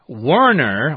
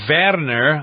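First: The name is pronounced the English way. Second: The name is pronounced the German way.

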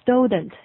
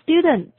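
First: The first vowel glides toward an 'oh' sound. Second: The first vowel is a pure 'oo' sound. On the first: The speaker calls it wrong. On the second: The speaker calls it right.

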